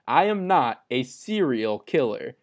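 The word serial is emphasized.

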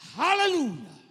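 It is said in an African style. The speaker calls it right. "Say it like they say it in Africa"

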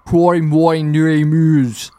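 It is said in a deep, hollow growl. "if you're going to do a low, you'd be like"

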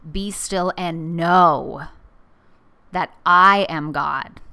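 The word 'know' is stressed. It is a call to know and recognize God. "Or I put the emphasis on the know"

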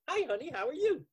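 The greeting sounds bright and cheerful. "cheery. Hi, honey, how are you? Which you then would say as an actor"

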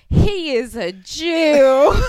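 It is said in a hard, aggressive tone. It sounds hostile toward the person described. "That's such an aggressive way to say it"

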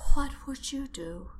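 It is said in a put-on character voice.

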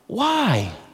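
It sounds concerned.

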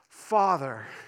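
It sounds presumptuous and too confident.

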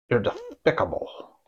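It is said with an exaggerated lisp.

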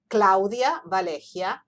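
The name is said the Spanish way. "is in Spanish"

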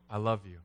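It is said earnestly, with full sincere weight. It is a heartfelt declaration of love. "I wasn't saying it that way. I was all in"

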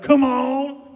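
It is said with soul and energy.

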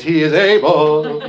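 It is said in a put-on Baptist preacher voice.

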